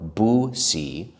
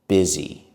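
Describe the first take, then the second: First: The first vowel sounds like 'oo'. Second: The first vowel sounds like 'ih'. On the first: The speaker calls it wrong. "It looks like bussy or boosie, but we don't say it that way" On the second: The speaker calls it right. "We say the letter U as I"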